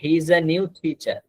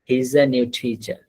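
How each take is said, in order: First: Each word is said separately and fully. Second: The first words are squeezed together into one.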